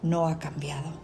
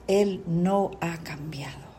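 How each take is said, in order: First: Said in the usual way. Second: "Él" and "no" each set apart, deliberately; emphatic restatement. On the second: Shown as a demonstration. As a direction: space out "Él no ha cambiado" word by word, stressing "Él" and "no". Repeats the statement with emphasis.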